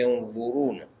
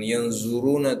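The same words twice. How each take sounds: First: The consonant is an emphatic dh sound. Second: The consonant is a plain z sound. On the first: The speaker calls it right. "tapi yanzuruna" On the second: The speaker calls it wrong. "Jangan yanzuruna"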